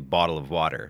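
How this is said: It is said in an American accent.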